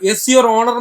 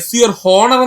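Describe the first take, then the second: First: The last word starts with a vowel, no h. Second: The last word starts with an h sound. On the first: The speaker calls it right. "എസ് your ഓണർ എന്നല്ലേ സുഹൃത്തുക്കളെ പറയുന്നത്" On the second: The speaker calls it wrong. "അല്ലാതെ എസ് your ഹോണർ എന്നല്ലല്ലോ നമ്മൾ പറയുന്നത്"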